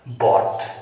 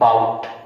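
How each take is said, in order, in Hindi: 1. स्वर खुली 'aw' ध्वनि है, जैसे saw में। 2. स्वर 'ow' ध्वनि है, जैसे cow में। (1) "आपका है ये बॉट" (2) "ये बाउट नहीं है"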